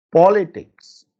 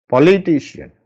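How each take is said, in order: First: "politics" with the first syllable high and strong; stress on PO. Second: "Politician" stressed late, on "ti". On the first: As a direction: hit "po" in "politics". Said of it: "You can see the po is stressed". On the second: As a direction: lean on "ti" in "Politician". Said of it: "I have stressed litition". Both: Shown as a demonstration.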